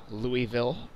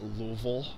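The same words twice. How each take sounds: First: Said in the usual way. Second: Louisville squeezed into two syllables, LOO-vul; local pronunciation. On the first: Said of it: "or as the locals would call it". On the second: Shown as a demonstration. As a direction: say Louisville as locals do, "Luvl", swallowing the middle. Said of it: "as the locals would call it".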